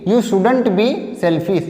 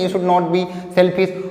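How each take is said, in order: First: 'Should not' is contracted into one syllable group. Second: 'Should not' is said as two full words. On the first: "या तो आप ऐसे बोल दीजिए" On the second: "या तो बोलिए शुड नॉट बी सेल्फिश"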